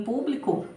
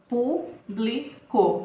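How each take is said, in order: First: Said in the usual way. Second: "publico" broken into three slow, separate syllables; "publico" slowly sounded out, pausing after each syllable. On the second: Shown as a demonstration. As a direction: say "publico" as pu, bli, co with clear gaps. Teacher splits word into syllables.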